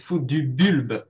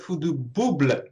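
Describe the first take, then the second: First: "Bulbe" with French u, l before final b; "Fu du Bulbe", rounded u and ending l-b-uh; correct French version. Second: "Bouble" with oo, ending b-l-uh; "Fu du Bouble", the l after the second b; wrong version shown. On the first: Guest coaching host on name, careful French "Bulbe". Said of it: "it's not Fu du Bouble". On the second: Guest correcting host, showing the mistaken "Bouble". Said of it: "but it's not". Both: Shown as a demonstration.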